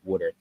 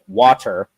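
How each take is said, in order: First: It is said in a South Jersey accent. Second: It is said in a neutral standard accent. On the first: "the whole accent and everything's come back out and it's like" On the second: "I would finally get to like where I could say like"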